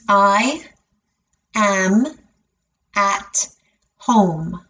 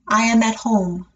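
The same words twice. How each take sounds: First: The sentence is said very slowly, word by word. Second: The sentence is said at a natural speed. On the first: "break it down and say it very slowly" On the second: "and then at a natural speed again"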